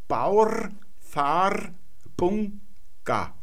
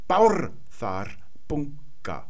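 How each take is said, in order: First: All syllables carry equal stress. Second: The first syllable is clearly stressed. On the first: "indem wir alle Silben gleich betont aussprechen" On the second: "aber die Betonung deutlich auf die erste Silbe"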